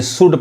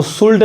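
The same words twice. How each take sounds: First: शुड with silent L; correct pronunciation. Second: शुल्ड with the L sounded; wrong pronunciation. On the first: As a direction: go from vowel straight to D in शुड. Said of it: "यानी शुड पढ़ाएगा". (शुड, एल को खामोश रखकर) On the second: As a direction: voice an L before the final D in शुल्ड. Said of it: "इसको शुल्ड नहीं कहेंगे". (शुल्ड, एल बोलकर) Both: Shown as a demonstration.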